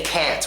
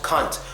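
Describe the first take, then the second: First: It is said with an American accent. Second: It is said with a British accent. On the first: "we say can't" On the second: "the British pronunciation of the word can't. You know how they say"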